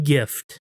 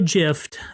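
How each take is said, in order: First: The word starts with a hard G sound. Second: The word starts with a soft J sound. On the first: The speaker calls it right. "I give you a gift" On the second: The speaker calls it wrong. "I don't give you a gift"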